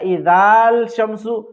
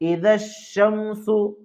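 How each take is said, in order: First: A long vowel and l come before sh. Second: Joined straight to the sh, no l sound. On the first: The speaker calls it wrong. "ये पढ़ना गलत है" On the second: The speaker calls it right. "Direct शीन से मिलाकर पढ़ेंगे"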